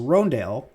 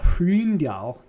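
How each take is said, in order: First: The first vowel is a plain English o sound. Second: The first vowel is a rounded German ö sound. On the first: It follows the name owner's own pronunciation. "you said it's pronounced Rondale" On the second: It follows the German reading of the letter. "but I really want to call it Hryndal"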